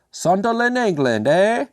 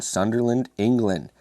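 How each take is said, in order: First: A hammed-up, much higher English accent; bad English accent. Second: Said in the usual way. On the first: Beer reviewer mocking the label in a terrible English accent. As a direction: overdo a cheesy English accent with a tag eh. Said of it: "That's bad".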